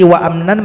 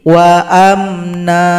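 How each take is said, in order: First: The word ends with an n sound. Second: The word ends with a long a vowel. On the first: The reading continues without stopping. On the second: The reader stops at this word.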